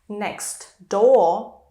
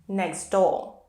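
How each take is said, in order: First: The T at the end of next is kept. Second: The T at the end of next is dropped.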